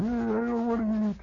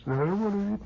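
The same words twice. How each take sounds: First: High nasal whine; little brother refusing supper; whiny kid brother. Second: High whining repeat; little brother refusing supper; whiny kid brother. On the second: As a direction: whine it again. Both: Retold or imitated.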